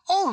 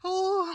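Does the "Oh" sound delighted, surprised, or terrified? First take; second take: surprised; terrified. First: It sounds surprised. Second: It sounds terrified.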